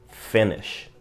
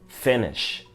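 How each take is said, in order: No difference in how they are said.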